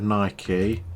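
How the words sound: It is said in an American way. The speaker calls it wrong. "for all you Americans who're saying it wrong"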